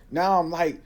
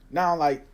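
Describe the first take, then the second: No difference in how they are said.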